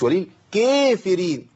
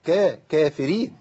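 First: وللكافرين with the kaf thinned too much and drawn out; wrong overthin reading. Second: كافرين read plainly with a natural kaf; correct reading. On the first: Teacher showing the wrong way to say وللكافرين. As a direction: overdo the thin kaf in وللكافرين slowly. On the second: Teacher giving the right version of كافرين. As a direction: say كا-، كافرين with balanced weight. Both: Shown as a demonstration. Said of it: "مش وللكافرين".

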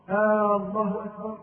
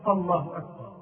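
First: Long "آه" at the start of "الله"; wrong long first vowel. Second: Said in the usual way. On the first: Shown as a demonstration. Teacher shows the mistaken takbir, opening vowel stretched. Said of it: "هذا خطأ". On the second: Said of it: "والصحيح أن يقول".

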